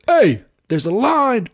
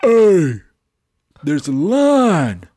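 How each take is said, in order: First: High, loud and drawn out; insist, louder and higher; slow high mock call-out; retold call-out. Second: Loud, firm call across the line; stretched-out loud warning; retold call-out. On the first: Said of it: "Yeah, I said". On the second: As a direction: call him out, loud and slow. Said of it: "I said".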